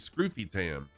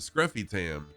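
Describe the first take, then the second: First: The first vowel is a long 'oo' sound. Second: The first vowel is a short 'uh' sound. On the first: This follows the spelling with one F. "it should be Scroofy Tam" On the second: This is how the name's owner actually says it. "I pronounce it Scruffy Tam"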